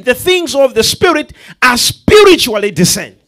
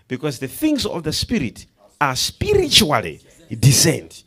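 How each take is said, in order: First: "spiritually" punched, the whole line louder and higher; loud preached restatement. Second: Said in the usual way. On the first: Shown as a demonstration. Preacher repeating the verse to the church, loud and emphatic. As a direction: drive "spiritually" home with force.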